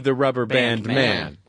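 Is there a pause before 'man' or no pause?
no pause. There is no pause before 'man'. They will see a person called the rubber band man. "or the rubber band man"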